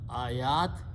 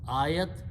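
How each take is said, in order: First: The second vowel is stretched long. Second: The second vowel is kept short. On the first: It means many signs. The speaker calls it wrong. "They stretch this a little bit longer, and it meaning becomes plural" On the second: It means one sign. The speaker calls it right. "one sign"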